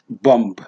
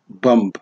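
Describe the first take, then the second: Both takes have the same delivery.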